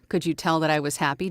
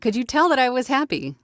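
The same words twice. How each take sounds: First: It is said with ordinary, low energy. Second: It is said with much more energy. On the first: The speaker calls it wrong. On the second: The speaker calls it right.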